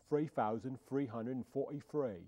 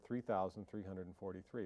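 First: It is said in a Cockney accent. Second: It is said in a plain accent. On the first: "but you say it like this" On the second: "You say the word 3,343"

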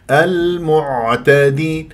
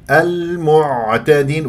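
No difference in how they are said.

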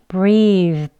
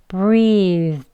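Both takes have the same delivery.

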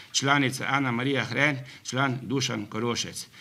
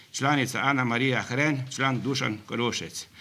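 The two takes are said the same way.

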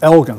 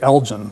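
First: The g sounds hard, as in get. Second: The g sounds soft, like a j. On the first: The speaker calls it right. "I looked it up, and it's Elgin" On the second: The speaker calls it wrong. "I always mispronounced it"

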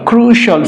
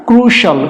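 Both takes have the same delivery.

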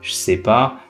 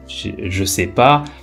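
First: The phrase is further shortened and run together. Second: The ne is dropped, other words are kept.

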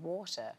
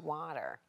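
First: It is said in a British accent. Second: It is said in an American accent.

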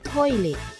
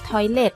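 First: It is pronounced with Japanese sounds. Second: It is pronounced with English sounds. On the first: "ซึ่งคนญี่ปุ่นจะออกเสียงว่า" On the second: "พูดทับศัพท์ภาษาอังกฤษเลยค่ะคือคำว่า"

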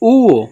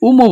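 First: The name has no m sound in the middle. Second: The name has an m sound in the middle. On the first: The speaker calls it right. "আসলে সঠিক উচ্চারণ হচ্ছে উও" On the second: The speaker calls it wrong. "অনেকে বলে উওকে উমো বলে"

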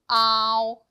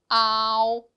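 The two takes are said the same way.

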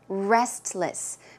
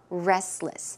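First: The T sound is clearly pronounced. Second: The T sound is dropped in quick speech.

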